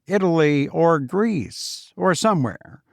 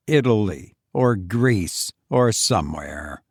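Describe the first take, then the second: First: Tossed off a bit higher, breezy; Foster's airy boast. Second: Lower, bitter repeat of the boast; Fenwick's bitter echo. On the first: Foster shows off his travels to Fenwick, airily. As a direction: drop it like a casual boast. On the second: Fenwick repeats Foster's boast to himself, lower and bitter. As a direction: mutter it back, lower and resentful. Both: Acted.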